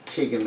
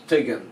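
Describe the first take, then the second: First: "tigim" with a plain short i and no broad T sound; wrong pronunciation. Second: "tuigim" with a broad T, the U silent, said like "tigim" but with a broad T; correct Irish pronunciation. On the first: Irish teacher showing the wrong "tigim". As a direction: say "tigim" the wrong way, as a learner would. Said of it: "It's not a tigim". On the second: Irish teacher showing learners the right "tuigim". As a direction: say "tuigim" properly with the T made broad. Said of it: "it's tuigim". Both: Shown as a demonstration.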